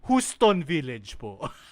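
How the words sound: It is said with a thick Filipino accent. The listener understood it. "once I deploy the goddamn thick ass accent of mine"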